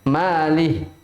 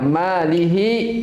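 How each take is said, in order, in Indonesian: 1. Kata itu berakhir dengan h polos, tanpa vokal. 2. Kata itu berakhir dengan vokal bersuara setelah h.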